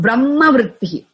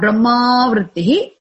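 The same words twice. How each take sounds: First: The final vowel of Brahma is short. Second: The final vowel of Brahma is long. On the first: The speaker calls it right. "Make it short" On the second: The speaker calls it wrong. "Not Brahma Vrittihi"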